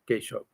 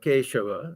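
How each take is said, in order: First: The name ends on the v consonant. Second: The name ends with a final vowel sound. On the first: This is how Bengali speakers say it. The speaker calls it right. "they'll pronounce it Keshav" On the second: This follows the written spelling. The speaker calls it wrong. "it's written Keshava"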